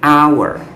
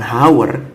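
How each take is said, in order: First: The word begins with a vowel sound. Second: The word begins with a sounded h. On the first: The speaker calls it right. "tapi hour, dimana bunyi A itu sendiri adalah huruf hidup" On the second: The speaker calls it wrong. "Tapi cara bacanya itu bukan hour"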